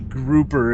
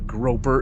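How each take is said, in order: First: The first vowel sounds like 'oo'. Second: The first vowel sounds like 'oh'. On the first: The speaker calls it right. "it's a grouper, is how you pronounce this ship's name" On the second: The speaker calls it wrong. "It's not a groper"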